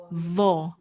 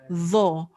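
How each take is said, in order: First: The consonant sounds like a th sound. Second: The same.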